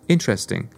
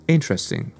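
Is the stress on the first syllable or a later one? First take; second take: first; first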